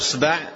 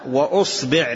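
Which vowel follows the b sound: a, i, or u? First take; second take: a; i. First: The b is followed by an a vowel. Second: The b is followed by an i vowel. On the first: "بفتح الباء" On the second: "بكسر الباء"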